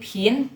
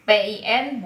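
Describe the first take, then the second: First: "pin" with a puff of breath after the p; aspirated P. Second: "pin" with a plain unaspirated p; wrong reading without aspiration. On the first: Teacher modelling pinyin P for students, with aspiration. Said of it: "Jadi ada napasnya". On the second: Teacher showing students the misreading of pinyin P, unaspirated. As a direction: say "pin" with no puff of air. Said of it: "bukan dibacanya pin ya". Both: Shown as a demonstration.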